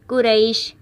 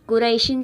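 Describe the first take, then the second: First: The word stops on the final 'sh' sound. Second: The word ends with a full '-in' sound. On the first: The reader stops on this word. "लेकिन हमने वक्फ किया तो कुरैश" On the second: The word is read on without stopping. "यहाँ पर दो ज़ेर थी"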